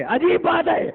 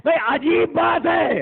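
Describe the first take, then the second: First: Emphatic preacher's cry. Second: Said in the usual way. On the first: Shown as a demonstration. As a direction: lift عجیب بات ہے into a ringing call to the crowd. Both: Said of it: "repeated for emphasis".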